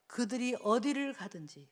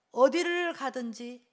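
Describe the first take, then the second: First: Said in the usual way. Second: Slow, louder repeat with 어디를 leaned on hard; emphatic slow reread stressing 어디를. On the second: Shown as a demonstration. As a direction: drag out 어디를 가든지 and press 어디를.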